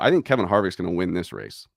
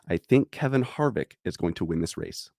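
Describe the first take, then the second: First: It is said at normal speed. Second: It is said more slowly.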